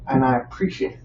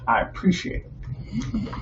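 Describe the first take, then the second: First: Said in the usual way. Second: Whispered. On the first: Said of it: "first thanks". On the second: Real, not acted. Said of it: "whispered repeat".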